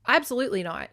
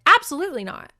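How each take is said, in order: First: Said in the usual way. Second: Loud, high absolutely not, hit hard; firm refusal. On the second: Retold or imitated. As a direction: slam the door on the idea. She refuses to go home.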